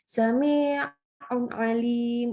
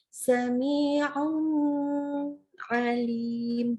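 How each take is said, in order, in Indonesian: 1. Bunyi nun terburu-buru dan dipotong pendek. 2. Bunyi nun ditahan terlalu lama. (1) "terlalu terburu-buru" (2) "jangan ditahan"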